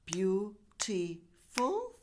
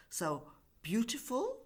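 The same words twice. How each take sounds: First: Beautiful drawn out very slowly, syllable by syllable; slow syllable demo. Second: Said in the usual way. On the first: Shown as a demonstration. Teacher counts out syllables for students, slowly. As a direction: stretch beautiful out so each beat is heard. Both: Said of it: "three syllables".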